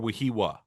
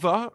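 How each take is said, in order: First: The third syllable starts with a W sound. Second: The third syllable starts with a V sound.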